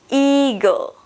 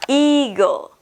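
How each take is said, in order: No difference in how they are said.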